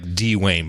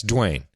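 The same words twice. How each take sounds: First: "Dwayne" slowly read as DEE-wayne; Dee-Wayne as spelt. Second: "Dwayne" as a single syllable, DWAYN; one-syllable Dwayne. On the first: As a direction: sound out "Dwayne" in two syllables with a long ee. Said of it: "when I'm reading it". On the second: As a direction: blend the D and W in "Dwayne". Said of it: "but yeah, it's Dwayne". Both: Shown as a demonstration.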